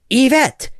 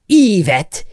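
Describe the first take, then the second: First: The stress is on the second syllable. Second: The stress is on the first syllable. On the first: The speaker calls it right. "instead of the second" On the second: The speaker calls it wrong. "We will emphasize the first syllable instead of the second"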